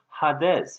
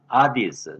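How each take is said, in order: First: It starts with 'ha', then 'des'. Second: It starts with a bare 'a', no h. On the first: "일반 신학교에서는 하데스 이렇게 발음하는데" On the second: "제가 현대 그리스 말로 발음을 해봤어요"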